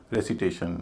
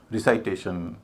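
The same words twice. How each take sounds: First: "रेसिटेशन" with "रे" and a short, light "सि"; correct pronunciation. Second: "रिसाइटेशन" with a long "साइ" as in recite; wrong pronunciation. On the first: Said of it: "हम इनको बोलते हैं". ("रेसिटेशन" में "सि" छोटा और हल्का) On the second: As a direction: say "रिसाइटेशन" with the vowel of recite kept whole. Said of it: "उनको वैसा नहीं बोलते". ("रिसाइटेशन" में "साइ" का पूरा, गलत उच्चारण) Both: Shown as a demonstration.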